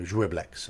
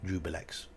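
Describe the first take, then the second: First: A slight 'i' sound follows the 'ju'. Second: It has a 'bi' syllable in the middle. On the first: The speaker calls it right. "pronouncing the I a little in that Juiblex" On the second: The speaker calls it wrong. "How many people call this Jubilex?"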